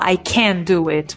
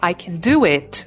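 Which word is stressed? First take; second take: can; do. First: The stress is on can. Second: The stress is on do.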